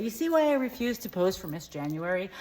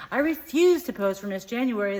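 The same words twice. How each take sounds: First: Said in the usual way. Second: "refuse" punched higher and louder; firm repeat leaning on "refuse"; stress on refuse. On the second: Acted. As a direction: hit the word "refuse" hard, emphatically. Restating the refusal more firmly.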